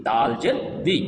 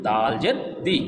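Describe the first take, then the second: No difference in how they are said.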